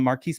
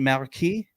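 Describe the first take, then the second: First: The name is pronounced the plain English way. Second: The name is pronounced the French way.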